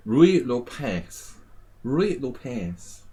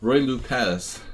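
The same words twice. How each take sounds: First: Slow, drawn-out Spanish pronunciation; put-on Spanish accent, stretched vowels. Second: Said in the usual way. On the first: Shown as a demonstration. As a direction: roll it out like a Spaniard, slowly. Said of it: "say it with a Spanish accent".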